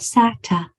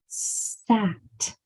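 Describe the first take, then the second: First: An extra vowel sound follows the final t. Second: The word ends crisply on a bare t. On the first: The speaker calls it wrong. "The word is not sata" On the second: The speaker calls it right. "Spit out that last sound"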